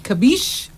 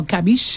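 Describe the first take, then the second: First: "Kabish" with a reduced first vowel, kuh-BEESH; unsure pronunciation. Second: "Kabish" with an open first vowel, ka-BEESH; alternative pronunciation. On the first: Host tries out a place name, "Kabish" said kuh-BEESH. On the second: Host offers another version of a place name, "Kabish" said ka-BEESH. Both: Shown as a demonstration. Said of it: "how you say it?".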